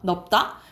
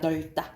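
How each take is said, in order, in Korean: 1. 첫 음절은 ㅂ 소리로 끝나요. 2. 첫 음절은 ㄹ 소리로 끝나요. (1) "보통 넓다라고 발음하는 사람들 많거든요" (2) "넓다예요"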